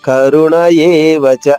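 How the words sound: The words run together with a y-like glide. The speaker calls it wrong. "ఆగకుండా పాడేస్తే ... యాకి ఏకారం ఇచ్చినట్టుగా వస్తుంది, అది కాదు"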